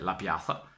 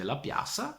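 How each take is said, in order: First: The middle consonant sounds like English th. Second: The middle consonant sounds like an s. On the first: This is how people from the Belluno area say it. "con la T H, come lui la pronuncia" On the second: This is how people from Padua or Venice say it. "con la S che lo ripronuncia"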